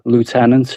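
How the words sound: It is said with an American accent.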